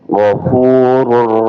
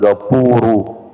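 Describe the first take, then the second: First: The word starts with a throaty, rasping gh. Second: The word starts with a plain hard g. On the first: The speaker calls it right. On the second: The speaker calls it wrong.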